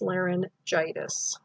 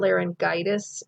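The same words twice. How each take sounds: First: The g is sounded softly like j. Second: The g is sounded hard like g. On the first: The speaker calls it right. "this G is followed by an I" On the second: The speaker calls it wrong. "it's not"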